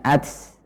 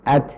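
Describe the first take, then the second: First: The final t releases so much air it hisses. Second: The final t stops, then releases light air. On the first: The speaker calls it wrong. "ini adalah terlalu banyak" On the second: The speaker calls it right. "suara terhenti kemudian udara mengalir"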